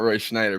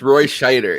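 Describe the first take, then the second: First: The surname has an n sound after Sch. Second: The surname has no n sound after Sch. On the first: The speaker calls it wrong. "It's not Roy Schneider" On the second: The speaker calls it right. "it's Roy Scheider"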